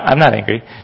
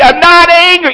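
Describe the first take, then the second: First: It is said fairly quietly. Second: It is said loudly.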